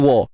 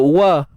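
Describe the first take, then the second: First: The wa is heavy and thick. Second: The wa is light and thin. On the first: The speaker calls it wrong. "tiba-tiba mari wa" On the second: The speaker calls it right. "Kadang-kadang sebut wa"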